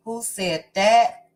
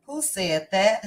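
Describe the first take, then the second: First: A light put-on character voice, a little louder, lifting at the end; Portia voice. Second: Said in the usual way. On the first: Livestream host teasing her chat in a lightly voiced Portia. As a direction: toss the question out as a playful character. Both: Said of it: "I said that in my Portia voice".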